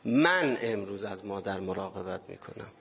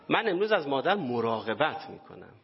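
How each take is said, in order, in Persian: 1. تکیه روی کلمه اول است. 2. تکیه روی کلمه «مراقبت» است.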